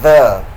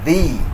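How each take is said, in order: First: The word ends in a short 'uh' vowel. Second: The word ends in a long 'ee' vowel. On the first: The next word starts with a consonant. "before a consonant it is pronounced the" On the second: The next word starts with a vowel. "before a vowel it is pronounced the"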